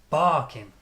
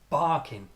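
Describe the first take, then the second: First: The first syllable is strong, second weak. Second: The same.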